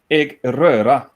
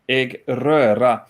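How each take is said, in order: Both takes have the same delivery.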